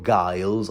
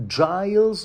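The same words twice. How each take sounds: First: Giles with a hard G, as in "guy". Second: Giles with a soft G, as in "giant". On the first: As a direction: say Giles starting like "guile". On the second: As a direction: say Giles starting with a J sound. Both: Shown as a demonstration. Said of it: "I heard it pronounced both ways".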